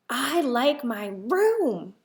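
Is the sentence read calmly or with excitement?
with excitement. It is read in a lively, excited way. The speaker calls it right.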